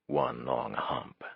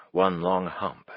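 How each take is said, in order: First: Low, slow, soft amused repeat; slow drunken murmur. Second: Said in the usual way. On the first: A narrator's reading. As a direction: savour the phrase slowly, almost to yourself. Drunk mind repeats phrase.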